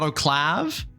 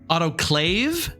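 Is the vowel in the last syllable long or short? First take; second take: short; long. First: The last syllable has a short vowel, like 'have'. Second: The last syllable has a long vowel, like 'wave'. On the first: The speaker calls it wrong. "not Av" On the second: The speaker calls it right. "It's it's Ave"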